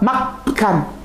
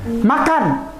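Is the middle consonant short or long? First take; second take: long; short. First: The k sound is held long and pressed. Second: The k sound is short and single. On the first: "K-nya dua" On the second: "K-nya satu"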